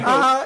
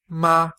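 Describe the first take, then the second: First: It is pitched at the very top of the voice. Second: It is pitched high within the normal speaking range. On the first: The speaker calls it wrong. "It's not ma" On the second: The speaker calls it right. "It's just ma"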